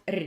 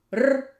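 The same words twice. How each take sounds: First: "r" as a lighter palatalised trill; soft r. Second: "r" as a strong, louder rolled trill; hard r. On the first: Teacher shows the difference, soft rolled r. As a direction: roll "r" softened toward ee. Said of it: "and soft r". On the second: Teacher shows the difference, hard rolled r. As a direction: roll "r" hard, without any ee colour. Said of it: "I will say hard". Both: Shown as a demonstration.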